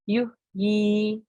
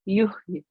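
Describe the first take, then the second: First: The word ends on a short vowel. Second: The final ya is clipped with no vowel. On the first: "exactly as it's written" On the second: "kasra becomes ya sakin"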